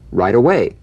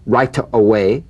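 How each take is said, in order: First: The T in right is softened toward a D. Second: The T in right is a crisp, full T. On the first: The speaker calls it right. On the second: The speaker calls it wrong.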